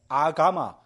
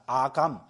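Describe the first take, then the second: First: The word ends with a final vowel. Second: The word ends with a consonant. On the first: "맨 뒤에 A는 발음을 잘 안 하거든요" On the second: "이것이 아감으로 중국에서 읽혀졌습니다"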